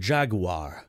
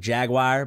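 First: The word is said with a British pronunciation. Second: The word is said with an American pronunciation. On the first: "but they're like the Jaguar" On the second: "We're like Jaguar"

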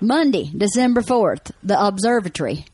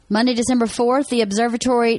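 First: It is read in a Southern country accent. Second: It is read in a neutral accent.

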